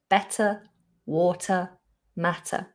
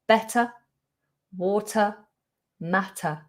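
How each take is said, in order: Both takes have the same delivery.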